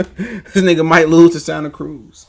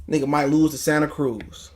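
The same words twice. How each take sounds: First: Slow, laughing scoff. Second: Said in the usual way. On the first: Real, not acted. Mocking Tank's chances, laughing at the idea. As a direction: laugh through the put-down.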